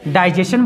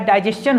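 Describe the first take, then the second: First: "डाइजेशन" ending in plain -shan; common mispronunciation. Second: "डाइजेशन" ending in -s-chan; correct pronunciation. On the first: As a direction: say "डाइजेशन" with sh, no ch sound. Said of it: "सभी को क्या बोलता है". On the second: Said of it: "actually इसका pronunciation क्या होता है". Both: Shown as a demonstration.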